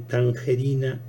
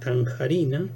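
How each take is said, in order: First: The second vowel is a mid E sound. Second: The second vowel is an open A sound. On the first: "abre la E de tangerina" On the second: "en tanjarina"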